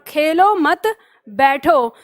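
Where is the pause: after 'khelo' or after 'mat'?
after mat. There is a pause after the second word. The listener should not play but sit.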